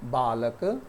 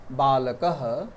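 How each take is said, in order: First: Said in the usual way. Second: बालकः said as baləkəh, with a breathy h at the end; Sanskrit visarga pronunciation. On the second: Shown as a demonstration. Teacher shows students the visarga, ending बालकः on h. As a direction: sound the visarga of बालकः as a clear h. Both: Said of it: "विसर्ग का उच्चारण हम ह के रूप में करते हैं".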